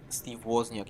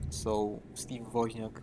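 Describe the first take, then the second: First: The surname is pronounced with English sounds. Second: The surname is pronounced with Polish sounds. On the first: This is how outsiders say the name. The speaker calls it wrong. "this doesn't sound right" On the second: This is how the name is said at home. The speaker calls it right. "Woźniak is a popular last name"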